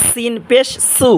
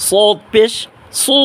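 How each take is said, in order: First: Slow সিন পেশ সু with thin s; sibilant sin. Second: সু with a heavy, full s; same place as sin, but thicken the s of সু; thick sad. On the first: Teacher showing viewers sin, slow thin-s সু. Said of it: "নিচের দাঁতের আগার সাথে". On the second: Teacher contrasting sad with sin, thick heavy সু. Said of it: "একই জায়গা কিন্তু মোটা আওয়াজে". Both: Shown as a demonstration.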